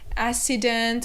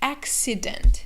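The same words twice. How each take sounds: First: The two C's are not a K then an S. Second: The two C's are a K then an S. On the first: The speaker calls it wrong. "or accident" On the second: The speaker calls it right. "So we say accident"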